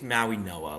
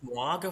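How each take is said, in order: First: The middle consonant sounds close to an N. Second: The middle consonant is a clear hard G. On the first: The speaker calls it right. "sounds more of an N. I think it's Maui Noa" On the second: The speaker calls it wrong. "I thought it was Moaga for the longest time"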